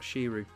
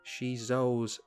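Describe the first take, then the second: First: The name's second syllable sounds like 'ru'. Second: The name's second syllable sounds like 'zo'. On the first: The speaker calls it wrong. "not Shiru" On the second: The speaker calls it right. "Must pronounce it correctly"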